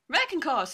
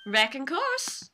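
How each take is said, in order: First: "Wrecking course" quicker, falling at the end; explanatory Southern repeat. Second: "Wrecking course" drawn out, rising; Southern drawl. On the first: Witness explaining her slang, "Wrecking course" with falling finish. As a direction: restate "Wrecking course" firmly in Southern twang. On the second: Witness answering the prosecutor, "Wrecking course" slow and rising. Lotta's slangy answer baffles the court. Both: Acted.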